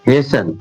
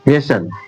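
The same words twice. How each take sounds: First: The t sound is silent in the middle. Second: The t sound is silent in the middle.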